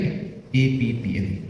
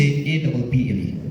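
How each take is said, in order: First: "A P P L E" spelled as five separate letters, both Ps said; five letters A, P, P, L, E, one by one; correct spelling. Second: "A double P L E" with the two Ps merged into "double P"; wrong spelling. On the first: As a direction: spell "A P P L E" naming each P on its own. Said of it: "Don't say A double P L E". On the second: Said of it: "Don't say". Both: Shown as a demonstration.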